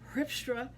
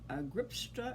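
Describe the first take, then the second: First: The name begins with an H sound. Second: The name begins with a hard G sound. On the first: The speaker calls it right. "they pronounce it with a G as an H" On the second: The speaker calls it wrong. "I pronounce it like an American"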